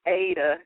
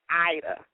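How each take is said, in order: First: The name begins with an 'ay' sound. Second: The name begins with an 'eye' sound. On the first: The speaker calls it wrong. "a lot of people um, mispronounce it. Um, and you want to say it's Ada" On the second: The speaker calls it right. "But it's pronounced Ida"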